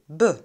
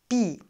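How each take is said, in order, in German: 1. Der Vokal ist ein schwaches Schwa. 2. Der Vokal ist ein i-Laut. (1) "ein Schwa, also b" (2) "auch nicht bi"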